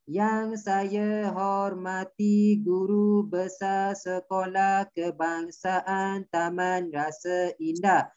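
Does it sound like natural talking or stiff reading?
stiff reading. It sounds like stiff reading aloud.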